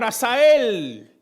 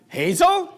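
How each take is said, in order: First: It is said as three syllables, A-sa-el. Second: It is said like the English name Hazel. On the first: This is how the speaker wants to be called. The speaker calls it right. "lo que yo me quería llamar" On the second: Someone misreads the written name as a girl's name. The speaker calls it wrong. "cuando una persona americana típicamente ve ese nombre escrito, ¿qué dice?"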